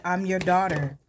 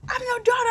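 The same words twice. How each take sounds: First: Said in the usual way. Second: Very high, strained mock scream; retold screaming plea. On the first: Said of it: "I said it again". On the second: Daughter being dragged off by security, mock screaming to Kendrick. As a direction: plead it as an acted-out high scream. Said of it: "And I'm screaming".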